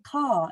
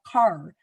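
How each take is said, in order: First: The final R sound is left out. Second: The final R sound is clearly pronounced. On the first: A young child is simplifying the word. The speaker calls it wrong. "your child might be saying "ka"" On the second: This is the adult form of the word. The speaker calls it right. "instead of "car.""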